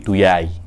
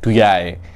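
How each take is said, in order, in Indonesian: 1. Konsonan tengah itu bunyi y. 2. Konsonan tengah itu bunyi y.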